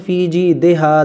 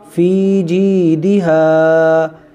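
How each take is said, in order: First: The vowel after the d is 'e'. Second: The vowel after the d is 'i'. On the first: The speaker calls it wrong. "लोग ये गलती करते हैं" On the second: The speaker calls it right. "देहा नहीं दिहा"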